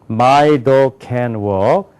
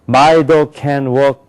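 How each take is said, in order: First: It is said with English stress and rhythm. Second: It is said with flat, even Korean-style syllables. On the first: The speaker calls it right. "이렇게 된다고요" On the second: The speaker calls it wrong. "한국 사람은 ... 이렇게 한다고"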